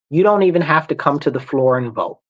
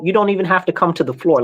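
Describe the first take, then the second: First: It is said slowly and deliberately. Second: It is said at normal speed.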